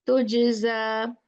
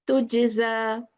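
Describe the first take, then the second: The two takes are said the same way.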